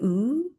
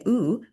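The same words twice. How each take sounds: First: The vowel is drawn out long. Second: The vowel is short and clipped.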